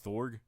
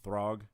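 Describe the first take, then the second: First: The vowel comes before the r: thorg. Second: The r comes before the vowel: throg. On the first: The speaker calls it wrong. "I always say this wrong. I always say Thorg" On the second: The speaker calls it right. "But no"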